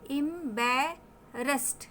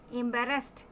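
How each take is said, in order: First: "एम्बेरेस्ड" slowly as एम-बै-रेस्ट; open ae sound. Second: Said in the usual way. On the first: Shown as a demonstration. Teacher showing how A and E combine, slow syllables. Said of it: "ए और ई मिलकर देगा ए".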